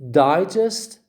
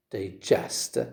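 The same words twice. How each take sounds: First: Loud, high DI in Digest; stress on first syllable. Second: Low, soft di-GEST for digest; stress on second syllable. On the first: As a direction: punch Digest as DI-gest. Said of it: "the stress is on the first syllable". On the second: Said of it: "the stress is on the second syllable". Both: Shown as a demonstration.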